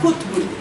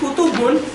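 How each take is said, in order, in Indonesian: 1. Tidak ada vokal yang terdengar di antara t dan b. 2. Ada vokal yang terdengar di antara t dan b.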